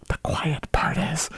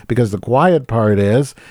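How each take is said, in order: First: Slow, hushed stage whisper; conspiratorial whisper. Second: Said in the usual way. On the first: Acted. Host revealing Jerome Powell's hidden motive, slow stage whisper. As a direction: whisper it like letting a secret slip.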